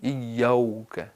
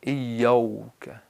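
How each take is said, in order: First: The vowel after the 'y' sounds like 'o'. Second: The vowel after the 'y' sounds like 'o'.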